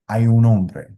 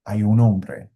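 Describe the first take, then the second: No difference in how they are said.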